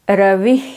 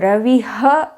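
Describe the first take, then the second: First: The word ends in a soft breath. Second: The word ends with an added ha syllable.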